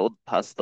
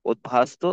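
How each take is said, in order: First: উদ্ভাস্ত with its first syllable altered; incorrect pronunciation. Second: উদ্ভাস্ত as "ut-bhasto"; correct pronunciation. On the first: Teacher warning how উদ্ভাস্ত is not said, incorrect pronunciation. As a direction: say the faulty form of উদ্ভাস্ত. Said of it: "এটা উদ্ভাস্ত হবে না". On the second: Teacher showing how উদ্ভাস্ত should be said, correct pronunciation. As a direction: sound the consonant after "ut" in উদ্ভাস্ত. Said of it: "এটা হবে উদ্ভাস্ত". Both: Shown as a demonstration.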